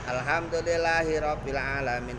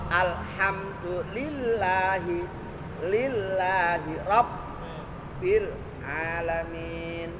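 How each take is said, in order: First: The doubled consonants are blurred and not held. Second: The doubled consonants are held clearly and distinctly. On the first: The speaker calls it wrong. "Tasdidnya ora jelas" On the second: The speaker calls it right. "Ada tasdid-tasdid jelas"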